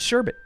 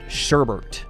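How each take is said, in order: First: The second syllable has no r sound. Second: The second syllable has an added r sound. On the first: The speaker calls it right. "There's no extra R in there" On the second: The speaker calls it wrong. "my family growing up always pronounced it sherbert"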